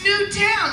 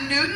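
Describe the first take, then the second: First: The name ends in a full 'town' sound. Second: The name ends in a reduced 'ton' sound. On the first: The speaker calls it right. "it's Newtown, like Newtown High School" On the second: The speaker calls it wrong. "It's not Newton"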